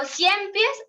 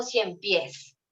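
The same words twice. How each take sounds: First: Cien pies run together as one word, CIEN stressed; stress on first syllable. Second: Cien pies run together as one word, PIES stressed; stress on last syllable. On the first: Teacher testing where the effort falls, cien pies stressed on CIEN. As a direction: slowly say cien pies leaning on CIEN, pies unstressed. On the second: Teacher offering the correct choice, cien pies stressed on PIES. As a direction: slowly say cien pies with the weight on final PIES. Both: Shown as a demonstration. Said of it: "en qué sílaba está ese mayor".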